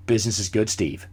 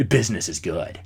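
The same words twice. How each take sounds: First: Lower, softer "Business is good, Steve"; deadpan reply to the billionaire; deadpan answer. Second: "Business is good" dropped much lower and softer; mock-deep repeat of his own answer. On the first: Retold or imitated. Mock-serious reply to Forbes.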